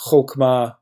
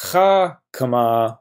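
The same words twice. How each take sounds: First: Chokmah with an o sound, "chok-mah"; chokmah, o vowel first; Hebrew noun chokmah. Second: Chakmah with an a sound, "chak-mah", slowly; chakmah, a vowel first, slow; Hebrew verb chakmah. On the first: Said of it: "This is chokmah, wisdom". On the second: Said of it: "would be the verb, she is wise". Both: Shown as a demonstration.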